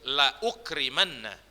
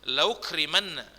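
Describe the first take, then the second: First: The hamzah is sounded with a clear glottal catch. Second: The hamzah is dropped and the sounds run together. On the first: The speaker calls it right. "ditulis dan dibaca" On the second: The speaker calls it wrong. "nggak boleh dibaca"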